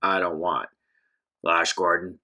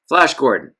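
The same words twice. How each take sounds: First: Lower, gravelly tough-guy voice; a menacing stranger over your shoulder, growled low; deep gravelly thug. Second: Said in the usual way. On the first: Acted. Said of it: "a deep, gravelly voice".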